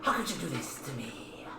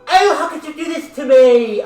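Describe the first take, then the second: First: It is said in a serious voice. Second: It is said in a silly, whiny voice.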